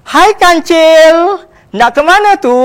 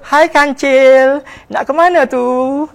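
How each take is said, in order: First: It is said in a plain voice. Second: It is said in a soft, gentle voice.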